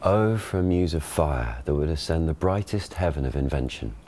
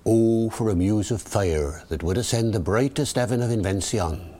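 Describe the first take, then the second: First: Received pronunciation stage reading; modern RP Shakespeare. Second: Original pronunciation, rhotic Elizabethan accent; rolled-back Early Modern English accent; Shakespearean original pronunciation. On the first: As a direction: classic RP verse delivery. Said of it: "Ben gives the modern pronunciation". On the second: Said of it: "David the O P". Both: Shown as a demonstration.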